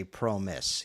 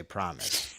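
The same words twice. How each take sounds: First: Slow, long-O "proh-miss" for promise; deliberate mispronunciation. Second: Low, soft "PRAH-miss" for promise; usual pronunciation. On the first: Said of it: "but you don't say promise". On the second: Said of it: "You say promise". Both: Shown as a demonstration.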